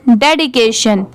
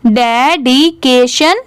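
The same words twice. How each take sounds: First: Said in the usual way. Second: डेडिकेशन very slowly, each syllable held apart. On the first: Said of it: "पूरा मिला देंगे तो". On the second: Shown as a demonstration. Teacher modelling for learners to repeat, डेडिकेशन slowly in syllables. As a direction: break डेडिकेशन into de, di, ke, shan. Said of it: "ऐसे आप करके मेरे बाद repeat करिए".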